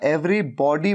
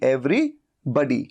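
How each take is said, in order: First: The second part has an open 'aw' vowel. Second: The second part has a short 'uh' vowel. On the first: The speaker calls it wrong. "Every बॉडी मत कहिए, बॉडी नहीं।" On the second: The speaker calls it right. "लेकिन ये बडी, बडी"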